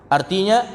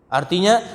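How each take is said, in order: No difference in how they are said.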